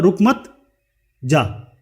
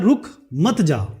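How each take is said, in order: First: There is a pause after 'मत', before 'जा'. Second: There is a pause after 'रुक', before 'मत'.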